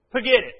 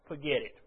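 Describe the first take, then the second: First: Forget it, louder and higher with force. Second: Said in the usual way. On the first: Shown as a demonstration. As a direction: repeat it with a sharp punch.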